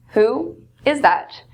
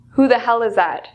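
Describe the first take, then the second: First: Said in the usual way. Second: "Who the hell is that?" with hell leaned on; mildly rude surprised demand; rude, stressed hell. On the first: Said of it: "It really changes the meaning". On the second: Shown as a demonstration. Teacher showing a rude version to students, stress on hell. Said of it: "it's a bit rude".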